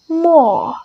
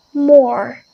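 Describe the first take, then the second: First: British "more" without the R; "more" with the final R dropped; British pronunciation. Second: American "more" with a strong R; "more" with the final R sounded; American pronunciation. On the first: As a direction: say "more" as an open "maw". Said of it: "British is totally omit that R". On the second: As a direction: say "more" ending on a clear R. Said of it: "American is very emphasized on that". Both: Shown as a demonstration.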